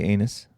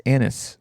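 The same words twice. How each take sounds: First: "anus" said AY-nuss; long A at the start of "anus"; naive pronunciation. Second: "anise" said AN-iss; short A at the start of "anise"; alternative pronunciation. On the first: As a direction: say "anus" with the vowel of "day". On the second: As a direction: say "anise" with the vowel of "an". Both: Shown as a demonstration. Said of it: "you naturally wanna say anus".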